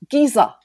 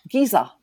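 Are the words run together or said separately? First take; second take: run together; run together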